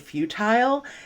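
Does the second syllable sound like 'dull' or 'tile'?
tile. The second syllable rhymes with 'tile'. "they might use the British pronunciation of futile"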